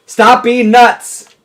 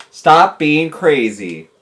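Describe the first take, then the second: First: Loud, high, drawn-out order; raised-voice telling-off; yelled command. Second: Slow, spaced-out command at normal pitch; deliberate, measured order; firm slow telling-off. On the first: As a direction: yell it slowly so it gets through. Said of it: "He doesn't understand that?". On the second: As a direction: spell it out slowly for a dim listener. First try at telling fish off. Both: Real, not acted.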